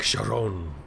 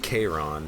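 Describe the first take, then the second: First: The name begins with an SH sound. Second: The name begins with a K sound. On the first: The speaker calls it right. "It should be like Sharon" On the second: The speaker calls it wrong. "It doesn't sound like it should be Kairon"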